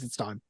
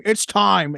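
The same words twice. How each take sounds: First: Low, hushed imitation of a movie scream; Mark Ruffalo side talker. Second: Mock movie yell, higher and louder; Mark Ruffalo scream. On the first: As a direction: mutter it out the side of the mouth. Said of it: "talking out the side of his mouth when he screams". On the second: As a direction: shout it out the side of the mouth. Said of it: "super heavily talking out the side of his mouth when he screams".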